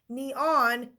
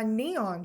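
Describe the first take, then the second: First: The stress is on the second syllable. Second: The stress is on the first syllable. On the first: The speaker calls it wrong. "do you say, "Oh, Mom, I need to wear my neon shirt today"? No, you don't" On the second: The speaker calls it right. "You say, "Mom, I need to wear my neon shirt today,""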